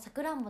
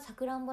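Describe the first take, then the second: First: The word has a regional dialect pitch accent. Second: The word has the standard pitch accent. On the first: "さくらんぼのこともさくらんぼだったんですよ" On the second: "本当はなんか標準はさくらんぼらしい"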